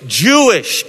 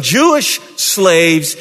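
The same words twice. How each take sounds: First: "Jewish" said alone, leaned on with a falling tune; stress on Jewish. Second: Said in the usual way. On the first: Shown as a demonstration. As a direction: set "Jewish" apart and lean on it. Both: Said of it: "emphasis on Jewish slaves".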